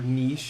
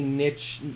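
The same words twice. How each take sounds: First: The word is said the fancier, posh-sounding way. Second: The word is said the plain, everyday way. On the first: "kind of pinky out to me" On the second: "so I go with niche"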